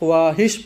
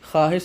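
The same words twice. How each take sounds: First: A 'w' sound is pronounced after the 'kh'. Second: No 'w' sound is pronounced after the 'kh'. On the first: The speaker calls it wrong. "कुछ लोग ख्वाहिश पढ़ते हैं, वो गलत है" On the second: The speaker calls it right. "वाव है लेकिन ये तलफ़ुज़ नहीं हो रहा है"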